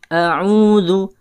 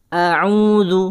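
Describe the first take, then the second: Both takes have the same delivery.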